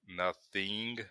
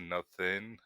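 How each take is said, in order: First: The final syllable has a tense 'ee' vowel. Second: The final syllable has a lax 'ih' vowel. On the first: This is how younger Americans say it. "younger Americans, like the trend is towards like words that end in ing, just say like nothing" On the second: This is the older, usual way of saying it. "as opposed to"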